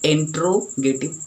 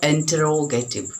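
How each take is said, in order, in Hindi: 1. इस शब्द को चार सिलेबल में बोला जाता है। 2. इस शब्द को पाँच सिलेबल में बोला जाता है। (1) "इंट्रोगेटिव नो" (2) "ऐसे पढ़ेंगे"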